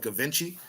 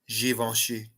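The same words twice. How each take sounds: First: The name is said with an American pronunciation. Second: The name is said with a French pronunciation. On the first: The speaker calls it wrong. "we're American and we're in America, so I call it Givenchy" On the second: The speaker calls it right. "it's actually pronounced Givenchy"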